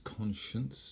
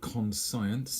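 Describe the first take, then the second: First: It is said in two syllables, stressing the first. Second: It is said as spelled, with more than two syllables. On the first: The speaker calls it right. "two syllables, stress on the first" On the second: The speaker calls it wrong. "Even though it looks like conscience, it isn't"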